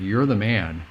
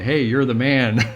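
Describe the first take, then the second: First: It sounds like a stern accusation. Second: It sounds like casual, friendly praise.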